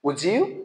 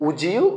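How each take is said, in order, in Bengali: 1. d এবং y মিশে একটি j ধ্বনি হয়ে যাচ্ছে। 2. d এবং y মিশে একটি j ধ্বনি হয়ে যাচ্ছে।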